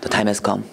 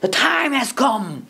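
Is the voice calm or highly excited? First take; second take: calm; highly excited. First: It is said in a calm, plain voice. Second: It is said in a highly excited voice.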